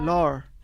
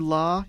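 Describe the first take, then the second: First: The word ends with an added r sound. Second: The word ends in a plain vowel. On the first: "you'd say lar" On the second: "instead the word law"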